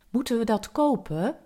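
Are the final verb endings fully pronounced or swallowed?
fully pronounced. The final e of the verbs is pronounced.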